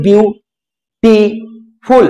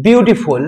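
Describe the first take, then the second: First: beautiful very slowly in three parts, বিউ-টি-ফুল, with clear pauses; ভাঙা syllable by syllable. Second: Said in the usual way. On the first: Shown as a demonstration. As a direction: break beautiful into বিউ, টি, ফুল, one beat at a time. (Beautiful শব্দটি ভেঙে ভেঙে, থেমে থেমে উচ্চারণ) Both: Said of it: "ভেঙে ভেঙে উচ্চারণ করতে পারি".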